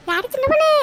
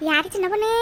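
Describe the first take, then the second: First: High, loud call across the yard. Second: Said in the usual way. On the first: Acted. Friend at the door shouts for Chinna Ponnu, loud call. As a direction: shout it so the house hears. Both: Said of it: "என்னடி இம்புட்டு கத்து கத்துற?".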